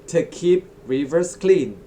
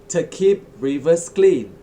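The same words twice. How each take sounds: No difference in how they are said.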